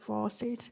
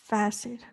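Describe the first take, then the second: First: The first vowel sounds like 'saw'. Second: The first vowel sounds like 'face'. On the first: The speaker calls it wrong. "not faucet" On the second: The speaker calls it right. "which is facet"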